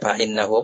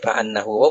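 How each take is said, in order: First: The word after fa begins with an i vowel. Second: The word after fa begins with an a vowel. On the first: The clause is read as a full sentence. "akan inna tu lah kasrah" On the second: The clause is read as a verbal noun. "baca dengan fathah boleh"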